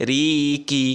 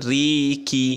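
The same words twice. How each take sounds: No difference in how they are said.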